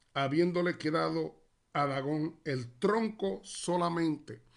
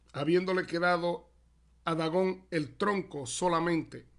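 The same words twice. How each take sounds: The two takes are said the same way.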